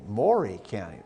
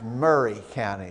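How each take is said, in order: First: The first word is said like 'Mory'. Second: The first word is said like 'Murray'. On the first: The speaker is not from the area. The speaker calls it wrong. "don't say Maury County, because we know you're not from around here" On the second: The speaker is from the area. The speaker calls it right. "It's Murray County"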